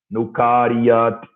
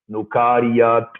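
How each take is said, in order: First: The word ends with a final consonant sound. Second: The word ends with a final consonant sound.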